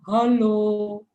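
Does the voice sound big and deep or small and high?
big and deep. It is said in a big, deep voice. The big bear is speaking. "Ini ada beruang besar mengucapkan salam"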